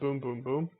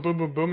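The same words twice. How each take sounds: First: The three booms come slowly, spaced apart. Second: The three booms come quickly, close together. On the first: The beams fire at a longer interval. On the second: The beams fire at a shorter interval.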